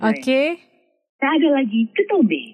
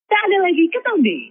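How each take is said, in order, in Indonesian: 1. Suaranya bernada sedang. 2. Suaranya bernada tinggi.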